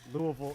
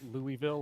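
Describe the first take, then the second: First: It is said the local Kentucky way. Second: It is said the way an outsider says it. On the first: "how we say ... Louisville" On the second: "instead of either Louisville"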